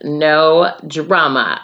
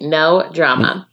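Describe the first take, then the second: First: "No drama" drawn out slowly, NO stressed. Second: "no drama" again, NO stressed, a touch slow; repeated emphasis. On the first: Reading the advice, slowly stressing no drama. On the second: Repeating the rule to listeners, stressing no. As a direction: repeat "no drama" with a firm hit on NO. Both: Shown as a demonstration. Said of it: "I repeat".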